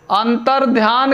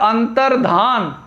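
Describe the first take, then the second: First: अंतर्ध्यान with a y, antar-dhyān; wrong pronunciation. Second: अंतर्धान slowly, antar-dhān with no y; correct pronunciation. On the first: Teacher quoting the common mistake, wrong pronunciation. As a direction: say अंतर्ध्यान ending in dhyaan. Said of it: "के बजाय जो है क्या होता है?". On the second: Teacher showing how to read it, correct pronunciation. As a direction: say अंतर्धान slowly, ending in plain dhaan. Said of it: "इस तरीके से इसको पढ़ेंगे". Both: Shown as a demonstration.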